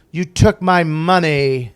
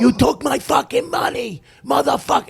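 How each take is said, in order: First: Slow, louder, higher mock effeminate delivery; imitating the actor's camp line at the end of rehearsal; drawn-out effeminate line. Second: Much higher, screaming mob threat; furious scream. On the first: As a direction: stretch out each word, louder and campy. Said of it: "so he kept doing it". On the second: Retold or imitated. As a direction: scream it like you snapped. Actor attacks him, screaming.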